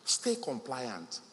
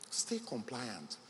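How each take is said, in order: First: Slow, each word weighted, "Stay" stressed; firm emphasis. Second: Slow, much softer repeat of "Stay compliant"; repeating the key advice to entrepreneurs, softly; soft echo. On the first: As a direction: drive "Stay compliant" home slowly. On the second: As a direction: drop to a near-hush on "Stay compliant". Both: Shown as a demonstration. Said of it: "please remember this".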